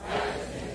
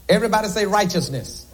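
First: The word "Righteousness" said back by the crowd, far and faint; a faint distant answer from the pews; congregation echo. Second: Said in the usual way. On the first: Real, not acted. Congregation repeats "Righteousness" back to the preacher, faint and distant.

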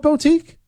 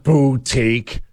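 First: "boutique" said "bo-teek", with an o in the first syllable, high; own mispronunciation. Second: "boutique" said slowly as "boo-teek"; rejected pronunciation. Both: Shown as a demonstration. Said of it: "It's not boutique".

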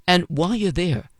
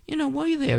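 First: Said in the usual way. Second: High-pitched repeat. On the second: Real, not acted. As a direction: jump way up in pitch. Repeats phrase much higher.

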